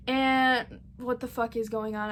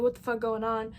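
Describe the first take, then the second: First: "what the fuck is going on" in a slightly odd, sleepy put-on voice; a mild mock of a groggy just-woken question. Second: Said in the usual way. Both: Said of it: "I don't know why I'm talking like this".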